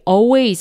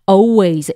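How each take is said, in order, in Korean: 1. L 소리가 분명하게 발음돼요. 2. L 소리는 묵음이에요. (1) "always가 아니고요" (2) "요 L이 묵음 처리가 돼서요"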